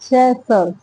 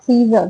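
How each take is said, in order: First: The first vowel is short, as in 'sit'. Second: The first vowel is long, as in 'see'. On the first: The speaker calls it right. "सेसर्स बोलते हैं इसको" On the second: The speaker calls it wrong. "सीजर नहीं बोलते"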